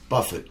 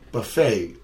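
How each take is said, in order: First: It is said in an English way. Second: It is said in an American way.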